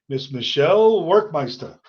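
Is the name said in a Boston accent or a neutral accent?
Boston. The name is said with a Boston accent. The speaker calls it wrong. "my Boston accent"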